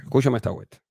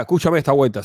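First: Serious. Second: Said in the usual way. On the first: Real, not acted. Talking seriously to Díaz-Canel, in a lower, softer earnest voice.

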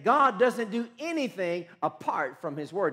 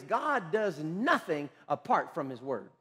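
First: "God" hit hard at the start, "anything" lifted; emphatic repetition. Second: Slow, measured declaration; deliberate statement. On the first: Preacher repeats his key principle to the congregation, emphatic. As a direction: drive it home with firm stress on "God". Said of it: "I'm gonna say that again". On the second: Preacher states a key principle to his congregation, slow and deliberate. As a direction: lay it down word by word, slowly. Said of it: "Let me say it like this". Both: Real, not acted.

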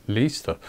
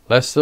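First: Leicester read as "Lee-ster"; mispronounced Leicester. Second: Said in the usual way. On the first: Real, not acted. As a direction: sound out Leicester wrongly as LEE-ster, trailing softer. Stumbles on name, then corrects it.

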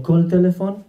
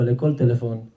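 First: "טלפון" pitched higher as a question; asking. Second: Said in the usual way. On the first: Acted. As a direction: ask "כל טלפון" in a raised, questioning voice. Old man asks the seller.

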